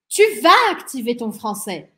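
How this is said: The sentence has an emphatic exclamatory intonation. The speaker is exclaiming that you will activate your French. "Exclamação"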